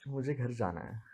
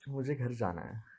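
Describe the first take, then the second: First: It is said shyly. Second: The same.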